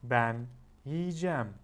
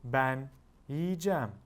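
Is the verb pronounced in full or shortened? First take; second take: shortened; shortened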